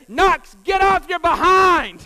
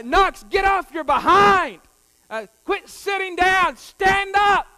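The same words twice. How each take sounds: First: Loud, slow yelled order across the field; coach's shout. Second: Loud, higher yelled commands; coach's shout again. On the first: Coach yelling at Knox to get up, loud slow shout. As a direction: bark it like a coach at a tired kid. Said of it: "the coach screamed at him". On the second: Coach yelling at Knox to stand up, loud shout. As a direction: yell it from the sideline. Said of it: "But he said, uh". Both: Retold or imitated.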